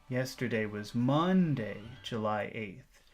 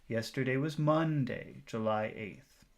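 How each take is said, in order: The two takes are said the same way.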